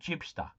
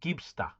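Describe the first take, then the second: First: The name begins with a soft J sound. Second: The name begins with a hard G sound. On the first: The speaker calls it wrong. "you say my name wrong" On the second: The speaker calls it right. "it's [name], like [name]"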